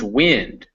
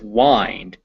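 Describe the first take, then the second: First: The vowel sounds like the vowel in 'it'. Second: The vowel sounds like the word 'eye'. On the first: It means air that blows. "The second one is wind, which blows through the air" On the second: It means to twist. "The first one is wind, as in to twist"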